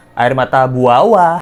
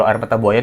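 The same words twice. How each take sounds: First: "buawa" said with a w in place of the y; punny mispronunciation. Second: Said in the usual way. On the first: Shown as a demonstration. Host jokes that Agus cries "buawa" tears, said with a w. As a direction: stress the twisted word "buawa" with a w sound. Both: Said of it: "Buaya dan buawa".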